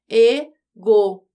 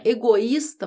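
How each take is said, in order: First: Egoísta pulled apart slowly and louder, e-go-ís-ta; syllables separated. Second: Said in the usual way. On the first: Shown as a demonstration. Teacher showing students how egoísta splits into syllables. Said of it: "Quando eu separo as sílabas". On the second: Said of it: "fica egoísta".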